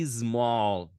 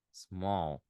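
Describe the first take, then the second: First: Loud "small" with a strong ee added in front, eez-MALL; exaggerated "ismall" as a mistake; wrong Brazilian pronunciation. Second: "small" as one syllable from a light s; lower, gentle "small" with no vowel before the s; correct English pronunciation. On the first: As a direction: hammer an extra first syllable onto "small". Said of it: "Não é". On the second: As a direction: subtle s glides into "small". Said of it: "é small". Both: Shown as a demonstration.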